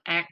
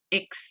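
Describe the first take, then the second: First: The letter is named as in Indonesian. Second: The letter is named as in French. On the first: "kalau dalam bahasa Indonesia kan X" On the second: "sementara dalam bahasa Prancis itu X"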